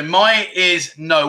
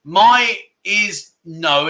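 First: Slow explanation. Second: "my is no" drawn out word by word; very slow "my is no". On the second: Teacher corrects himself on "my is no", spelling it out slowly. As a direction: stretch out "my is no" slowly. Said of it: "Well, actually". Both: Shown as a demonstration.

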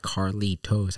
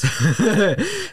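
First: "Carlitos" in careful, separate syllables with a crisp T; "Carlitos" over-enunciated as Car-lee-tos; carefully separated syllables. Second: "Carlitos" high, loud and drawn out in one sweep; rolled-out Carlitos. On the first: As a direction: sound out "Carlitos" stiffly, syllable by syllable. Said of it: "I don't say it like Carlitos". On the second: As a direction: sing out "Carlitos" as one rolling word, pitched way up. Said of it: "I say it". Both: Shown as a demonstration.

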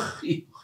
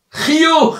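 First: Whisper. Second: Said in the usual way. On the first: Shown as a demonstration. Smile repeated, then whispered.

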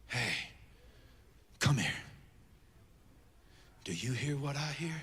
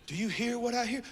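First: Hushed, secretive. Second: Softly voiced, lilting question. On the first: Acted. Prophet beckons after Mount Carmel, hushed and secretive. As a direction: call them close in a near whisper. Prophet confides what he hears. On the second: Prophet presses the listener to hear, soft questioning. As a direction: ask it softly but fully voiced. Prophet asks it again, higher.

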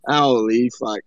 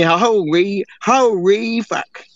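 First: Deep, low drawled Machi-style holy fuck; imitating Machi. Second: Holy fuck dragged out very slowly, holy long and falling; slow drawn-out imitation. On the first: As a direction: drop the voice way down and growl out holy fuck like a friend. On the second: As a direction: stretch every syllable of holy fuck. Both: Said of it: "I've been hanging around Machi too long".

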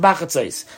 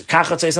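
First: "Bachatzos" starting with a B, bah-khah-tsos. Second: "Kachatzos" starting with a hard K, kah-khah-tsos. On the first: Teacher contrasting the two verse words for students, B in "Bachatzos". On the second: Teacher contrasting the two verse words for students, crisp K in "Kachatzos". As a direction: open "Kachatzos" on a crisp K sound, not a B. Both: Shown as a demonstration. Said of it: "that there was two words".

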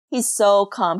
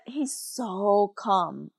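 First: Said in the usual way. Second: Softly and slowly, easing the words out; slow, soft calm. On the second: Retold or imitated. Telling the host how calm dad stayed, slow and soft. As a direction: let the word calm sound calm itself. Describing dad's calm in the boat.

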